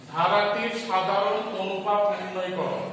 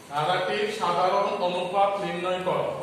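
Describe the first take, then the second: No difference in how they are said.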